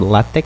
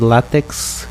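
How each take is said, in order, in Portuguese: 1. A palavra termina em som de 'k'. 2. A palavra termina em som de 'ks'. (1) "a pronúncia correta de látex é LaTeX" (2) "ou melhor"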